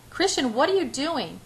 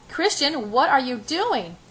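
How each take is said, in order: First: Higher-pitched startled question; alarmed. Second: High, slow, louder repeated question; high-pitched. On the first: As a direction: ask in rising alarm, at normal pace. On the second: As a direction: stretch each word out, high and alarmed. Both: A narrator's reading. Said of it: "I repeat in a high-pitched voice".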